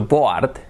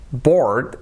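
First: "board" read letter by letter as Spanish, "bo-art"; spelling pronunciation. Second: Said in the usual way. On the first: Shown as a demonstration. Teacher showing learners the spelling, "board" sounded as written, "bo-art". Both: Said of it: "escrito board".

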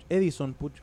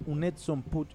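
First: "Edison Puch" the way the Argentine commentator calls him; Argentine announcer's Edison. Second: Said in the usual way. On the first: Retold or imitated. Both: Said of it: "como dice el relator argentino".

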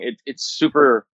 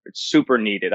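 First: Super drawn out slowly and leaned on hard; stress on super. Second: Said in the usual way. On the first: Real, not acted. Guest urging that remote farms need this, stressing super slowly. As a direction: lean into the word super, slow and deliberate. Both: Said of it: "I can't emphasize the word super".

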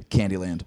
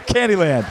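First: Said in the usual way. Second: Candyland called out louder; announcer call. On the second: Real, not acted. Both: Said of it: "sorry, Jesus Christ".

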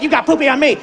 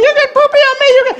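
First: Grandpa arguing back in his own register; mild mock-indignant comeback; grandpa's retort. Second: Put-on very high, upset little-girl voice; high-pitched mock kid tantrum; screeching granddaughter. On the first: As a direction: retort to a child, close to your normal voice. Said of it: "and I'm like". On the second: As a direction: imitate a small child shrieking an accusation. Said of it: "she's like".

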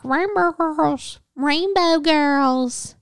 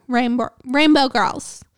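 First: Put-on "Rainbow Girls" said slowly and deliberately, each syllable clear; slow and careful. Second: Tongue-tied stumble. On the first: Shown as a demonstration. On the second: Real, not acted. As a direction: stumble and restart on "Rainbow". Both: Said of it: "I, like, can't talk".

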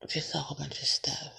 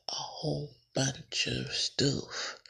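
First: Said in the usual way. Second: Slow, stretched "A whole bunch of stuff"; drawn-out emphasis. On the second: Real, not acted. Podcaster listing topics, repeats "A whole bunch of stuff" slowly stretched. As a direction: draw out each word of "A whole bunch of stuff".

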